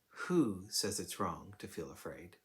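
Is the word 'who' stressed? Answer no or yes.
yes. The stress falls on the word 'who'. "we might hear the emphasis as"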